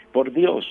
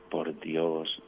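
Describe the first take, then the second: First: Loud, high-pitched mock child's answer; voz fuerte child. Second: Said in the usual way. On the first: Child answers priest who asked why we come, in a strong voice. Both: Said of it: "así con voz fuerte".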